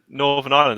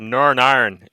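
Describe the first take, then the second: First: It is said in the speaker's usual accent. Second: It is said in a Northern Irish accent.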